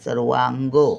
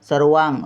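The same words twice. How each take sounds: First: The word ends on a full ga vowel. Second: The word ends on a bare g consonant. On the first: The speaker calls it right. "आपण ग असा पूर्ण बोलतो" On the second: The speaker calls it wrong. "सर्वांग असं नाही"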